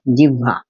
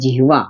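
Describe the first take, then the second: First: The h sound comes after the v sound. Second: The h sound comes before the v sound. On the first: This is how people actually say it. "मगर हम उसको बोलते क्या हैं?" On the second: This is how the word is written. "तो इसका उच्चारण होना चाहिए जिह्वा"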